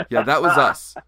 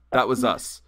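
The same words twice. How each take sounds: First: Nail the reveal loudly; triumphant shout. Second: Louder, steady "That was us"; firm repeat. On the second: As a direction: repeat it firmly. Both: Retold or imitated. Confronting the band.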